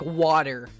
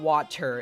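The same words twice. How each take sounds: First: The middle consonant sounds like a D. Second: The middle consonant sounds like a T.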